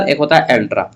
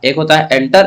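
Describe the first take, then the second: First: एंट्रा said with the cluster ट्रा, falling at the end; एंट्रा set against एंटर; एंट्रा said as in intra-personal; contrast intra. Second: एंटर said with the vowel एं, rising at the end; एंटर set against एंट्रा; एंटर said as in inter-personal; contrast inter. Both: Shown as a demonstration. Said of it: "ई को हम लोग कर देंगे ए".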